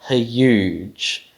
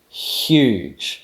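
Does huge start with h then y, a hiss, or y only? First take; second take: h then y; hiss. First: It begins with separate h and y sounds. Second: It begins with one hissing palatal fricative. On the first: "making a h followed by a y is a bit awkward" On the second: "you actually make a palatal fricative"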